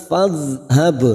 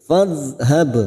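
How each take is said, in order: No difference in how they are said.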